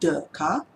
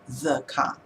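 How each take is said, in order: First: The first word starts with a D sound. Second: The first word starts with a TH sound. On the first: "more like a D sound" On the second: "the T H sound, the car, correctly"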